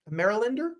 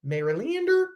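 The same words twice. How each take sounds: First: Marylander said as MER-uh-lan-der, with a rising question; checking the pronunciation. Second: Marylander said as MER-uh-lin-der, pitched much higher on the question; trying another pronunciation. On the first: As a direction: Marylander with a clear "land" sound in the middle, asking. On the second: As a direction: Marylander with a reduced "lin" in the middle, rising sharply. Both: Shown as a demonstration. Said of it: "is that what you call it?".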